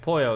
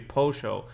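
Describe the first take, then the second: First: The double L sounds like a y. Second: The double L sounds like sh, Argentine style.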